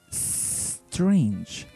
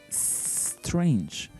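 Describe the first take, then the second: First: The word starts directly with the S sound. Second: The word starts directly with the S sound.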